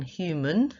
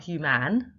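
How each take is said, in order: First: Said in the usual way. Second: "human" as hyoo-MAN, full A in the second syllable; spelling pronunciation. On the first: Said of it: "It's not human". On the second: Shown as a demonstration. Teacher showing the morphology, "human" said with a clear "man". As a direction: say "human" slowly as "hu-man", no schwa. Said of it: "even though that's the morphology".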